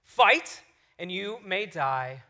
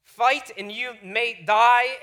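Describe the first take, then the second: First: Put-on slow, measured dramatic recital in own accent; rousing line, unhurried, no put-on accent; inspiring speech. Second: Badly faked Scottish accent, slow and loud; drawn-out, unconvincing Scottish accent; terrible Scottish accent. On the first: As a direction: deliver a battle speech slowly, with weighty pauses. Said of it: "he gives this inspiring speech". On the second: Shown as a demonstration. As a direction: attempt a grand Scottish war cry, clumsily. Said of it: "I tried practicing the Scottish accent".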